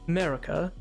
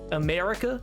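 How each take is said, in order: First: It sounds darker, with the middle vowel dropped. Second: It sounds bright, with all three vowels sounded. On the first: "if you go elsewhere, it's like America ... The middle A is often left out" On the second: "It's always very bright and very America. ... they do all three A's"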